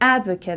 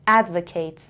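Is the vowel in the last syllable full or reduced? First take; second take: reduced; full. First: The last syllable has a reduced, weak vowel. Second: The last syllable has a full vowel like 'kate'. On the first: It is used as a noun. "So this is a noun advocate. میبینین شوا شوا kets" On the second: It is used as a verb. "صدای آخر ket kate عوض میشه چون این verb میگم"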